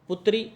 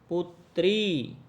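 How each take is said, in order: First: The final i vowel is short. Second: The final i vowel is long. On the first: The speaker calls it wrong. "छोटी की मात्रा नहीं" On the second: The speaker calls it right. "बड़ी ई की मात्रा आएगी"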